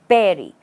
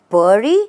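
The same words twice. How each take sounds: First: The stress is on the first syllable. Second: The stress is on the second syllable. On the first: The speaker calls it right. "The stress is not on the last part or the second part" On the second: The speaker calls it wrong. "have you said bury? Then it's incorrect"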